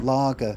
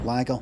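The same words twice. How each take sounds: First: It is said in a southern English accent. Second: It is said in a northern English accent. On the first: "down south, it smells like kind of lager, la, ah" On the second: "What kind of Northern English is more? Lager would be lager"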